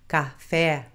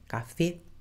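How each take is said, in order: First: The vowels are wide and open. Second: The vowels are narrow and closed. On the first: The speaker calls it wrong. "não é ca, café" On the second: The speaker calls it right. "é só fechar a, a vogal E no espanhol, café, e não alargar o A"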